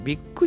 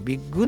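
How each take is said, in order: First: The word ends with a voiceless k sound. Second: The word ends with a voiced g sound. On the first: The speaker calls it wrong. "ビッグじゃなくて" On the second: The speaker calls it right. "クラブの国濁点なんですね"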